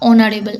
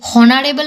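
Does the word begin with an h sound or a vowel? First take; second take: vowel; h sound. First: The word begins with a vowel sound. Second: The word begins with an h sound. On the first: The speaker calls it right. "এর উচ্চারণটা অনারেবল" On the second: The speaker calls it wrong. "হনারেবল এর উচ্চারণ হয় না"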